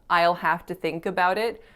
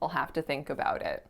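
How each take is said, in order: First: 'I'll' keeps its full vowel sound. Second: 'I'll' shrinks to a weak schwa and dark L. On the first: "some native speakers may reduce it to I'll" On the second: "many would reduce it even further"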